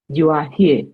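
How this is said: It is said with the pitch of a statement. It tells the listener where they are. "from a statement"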